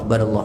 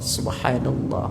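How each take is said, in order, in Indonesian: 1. Diucapkan cepat, suku kata pertamanya dihilangkan. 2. Diucapkan pelan, setiap suku katanya jelas. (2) "kalau zikir yang benar"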